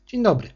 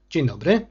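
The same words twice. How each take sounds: First: Higher, sing-song echo of his hello; echoing the greeting. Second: Said in the usual way. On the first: Acted. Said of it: "odpowiedziała jak echo sekretarka".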